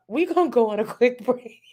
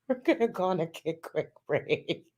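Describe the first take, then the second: First: Higher words cut by a laugh; can't finish for laughing. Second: Said in the usual way. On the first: Real, not acted. Announcing a break to chat while giggling.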